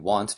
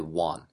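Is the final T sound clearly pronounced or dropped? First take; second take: clear; dropped. First: The final T sound is clearly pronounced. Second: The final T sound is dropped. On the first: The speaker calls it right. "instead of saying want" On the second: The speaker calls it wrong. "people say won"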